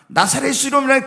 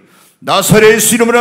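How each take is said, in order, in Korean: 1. 편하고 평범한 말투로 말합니다. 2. 강하게, 강한 권위를 담아 말합니다. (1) "그냥 나사렛 예수 이름으로 가 뭐 이렇게 안 해요" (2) "굉장히 하나님은 권위 있게"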